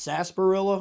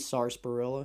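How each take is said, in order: First: The first R sound is left out. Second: The first R sound is pronounced. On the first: The speaker calls it right. "I always said it's sarsaparilla ... the R in sarsaparilla is silent, so I've been saying it right" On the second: The speaker calls it wrong. "it could be sarsaparilla"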